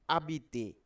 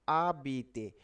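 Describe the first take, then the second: Both takes have the same delivery.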